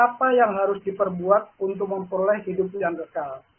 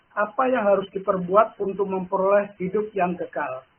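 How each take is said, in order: The two takes are said the same way.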